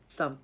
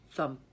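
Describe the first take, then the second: No difference in how they are said.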